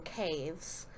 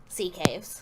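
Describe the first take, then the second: First: Said in the usual way. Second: "sea caves" with SEA punched louder; stress on sea. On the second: Real, not acted. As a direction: correct it by leaning on "sea".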